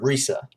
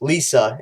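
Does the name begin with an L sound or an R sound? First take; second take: R sound; L sound. First: The name begins with an R sound. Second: The name begins with an L sound. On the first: It is the original Japanese name. "you pronounce it with an R" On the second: It is the Western-style stage name. "with L and saying it in a Western way"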